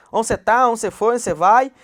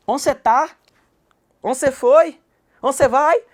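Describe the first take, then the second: First: Loud Goiás-style Onde cê tá, Onde cê foi, Onde cê vai; Goiás way of talking. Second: Loud, higher Goiás-style questions, dropping the a of aonde; Goiás way of talking. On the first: Teacher repeating the Goiás way of asking. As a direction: repeat the Goiás questions, just as lively. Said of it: "Tudo do mesmo jeito". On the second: Teacher demonstrating how people from Goiás talk. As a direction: say Onde cê tá with a lively Goiás twang. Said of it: "Fala assim, ó". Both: Shown as a demonstration.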